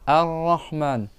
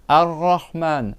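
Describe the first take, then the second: The two takes are said the same way.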